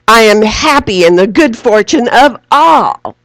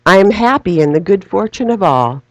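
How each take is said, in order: First: It is said loudly with strong emphasis. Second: It is said quietly and gently. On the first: "now say it with great emphasis" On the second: "now we're going to say it more softly"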